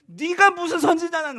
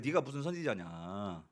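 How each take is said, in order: First: Loud high jeering retort; mocking taunt. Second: Low, slow, soft sneer; quiet scornful aside. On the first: Children taunting the prophet, loud jeer. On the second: Retold or imitated. Preacher repeating the children's taunt, soft sneer. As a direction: mutter the taunt under breath.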